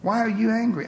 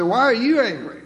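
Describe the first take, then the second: First: Said in the usual way. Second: Louder and higher, pressing the question; indignant, louder reading of the question; emphatic demand. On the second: Shown as a demonstration. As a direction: fire the question back at him. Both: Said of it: "I think he may have said it this way".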